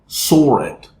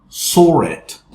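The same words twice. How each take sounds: Both takes have the same delivery.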